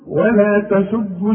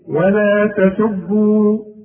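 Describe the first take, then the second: First: The final vowel is dropped into the next word. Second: The final vowel is drawn out long. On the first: The reciter continues straight into the next word. "حوصل ولا تسبوا الذين" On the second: The reciter stops after this word. "إذا وقفت بقى على ولا تسبوا، أقول إيه؟"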